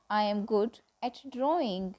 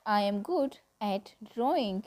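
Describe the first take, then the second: No difference in how they are said.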